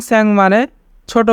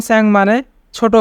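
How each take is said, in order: Both takes have the same delivery.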